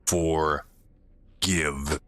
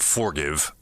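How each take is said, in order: First: It is said as two separated words. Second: It is said as one joined word. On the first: It is the word meaning to give. The speaker calls it right. "The word for give. Give you something" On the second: It means to pardon someone. The speaker calls it wrong. "not forgive"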